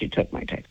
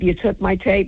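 First: Hissed under the breath, no voice; whispered accusation. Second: Said in the usual way. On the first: Retold or imitated. Confronting the actress at her makeup mirror, whispered accusation. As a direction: breathe the accusation out, barely audible. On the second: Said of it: "I said".

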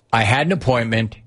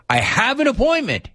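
First: Said in the usual way. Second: Repeated much higher, exasperated; insistent repeat. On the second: Retold or imitated. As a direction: say it again pitched way up, losing patience.

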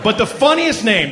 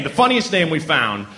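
First: "funniest" lifted high and bright; a laughing punch on "funniest"; stress on funniest. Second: Said in the usual way. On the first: Shown as a demonstration. Comic building up to the name, stressing "funniest".

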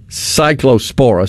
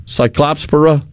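First: Cyclospora as SIGH-klo-SPORE-uh; careful cyclospora, no "clops" sound; corrected pronunciation. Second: Cyclopspora as sigh-KLOPS-pruh; unsure Cyclopspora, "pora" reduced; wrong syllable stressed. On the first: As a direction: say cyclospora with a long "o" in "clo" and a full "spora". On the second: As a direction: stress CLOPS in Cyclopspora and swallow the ending. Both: Real, not acted. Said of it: "I had the accent in the wrong place".

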